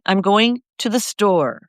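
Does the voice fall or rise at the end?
fall. The pitch falls at the end. It is a firm statement of what will happen. The speaker calls it right. "you hear how my voice goes down?"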